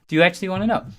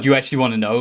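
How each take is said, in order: First: It sounds like a plain, sincere question. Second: It sounds aggressive and accusing. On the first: The speaker simply wants to know the answer. The speaker calls it right. "actually just ask the question" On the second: The asker is shamed for not really caring. The speaker calls it wrong. "it's aggressive towards them"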